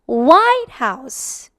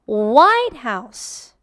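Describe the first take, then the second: First: The stress is on the word White. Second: The same.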